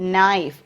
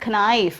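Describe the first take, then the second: First: The K at the start is silent. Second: The K at the start is pronounced. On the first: The speaker calls it right. "K is silent here" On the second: The speaker calls it wrong. "It is not knife"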